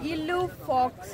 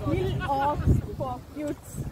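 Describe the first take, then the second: First: The name is said with a French pronunciation. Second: The name is read out letter by letter, English-style. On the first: This is how locals say it. "French people pronounce ಮಾಡೋದು" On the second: This is how outsiders would read it. "ಇಲ್ಲೇನಾದ್ರೂ ನಮಗೆ ಓದ್ಲಿಕ್ಕೆ ಹೇಳಿದ್ರೆ"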